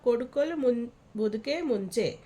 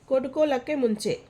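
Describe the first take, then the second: First: The phrase is said in its full form. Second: The phrase is said in a shortened form. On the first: This is the written style. "लिखावट की भाषा" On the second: This is the everyday spoken style. "बोलचाल की भाषा"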